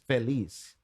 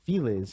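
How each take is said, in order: First: The name is said with a Spanish pronunciation. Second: The name is said with an English pronunciation. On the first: It is the pronunciation used in Spanish. "But if they're pronouncing it in Spanish, then it is Feliz" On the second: It is the local pronunciation in the United States. "that's why everybody pronounces it Feliz because it's where we live in the fucking United States of America"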